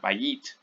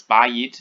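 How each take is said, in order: First: Bayit with the stress moved to the second syllable, ba-YIT; end-stressed bayit, demonstrated as a mistake; wrongly placed stress. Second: Bayit with a louder, punched first syllable BA; front-stressed bayit, firmly demonstrated. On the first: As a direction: say bayit softer, leaning on the final YIT. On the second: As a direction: say bayit as BA-yit, hitting the opening syllable. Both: Shown as a demonstration. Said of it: "It's not bayit".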